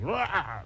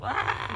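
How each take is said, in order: First: It is a softer, campier cry. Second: It is a fierce Wolverine-style scream.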